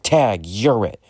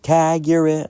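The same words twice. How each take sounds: First: Said in the usual way. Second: Put-on high, bright-eyed child taunt; taunting kid voice. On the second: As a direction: play a cheeky little kid, high. Kid taunting while tagging him.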